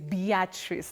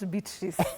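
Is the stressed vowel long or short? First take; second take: long; short. First: The stressed vowel is drawn out long. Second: The stressed vowel is kept short. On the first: The speaker calls it right. "So the long one" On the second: The speaker calls it wrong. "not Beatrice"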